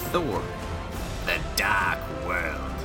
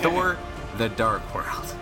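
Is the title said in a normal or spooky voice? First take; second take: spooky; normal. First: It is said in a spooky, ominous voice. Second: It is said in a normal voice.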